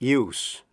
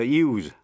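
First: The word ends with an s sound. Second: The word ends with a z sound. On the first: It is a noun meaning the act of using. "nếu là danh từ, chữ S phát âm là S" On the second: It is a verb meaning to employ something. "nếu là động từ, phát âm là Z"

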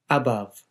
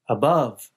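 First: The stress falls on the first syllable. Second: The stress falls on the second syllable. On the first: "a speaker of Hindi or Punjabi might put stress on the first part of a word" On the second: "Americans generally place the stress later in the word"

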